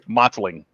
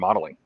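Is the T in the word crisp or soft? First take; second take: crisp; soft. First: The T is crisp and clearly emphasized. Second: The T is soft, sounding almost like a D. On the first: The speaker calls it right. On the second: The speaker calls it wrong.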